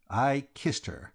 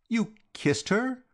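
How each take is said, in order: First: Said in the usual way. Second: Astonished. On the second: A narrator's reading. Reggie astonished at George's confession.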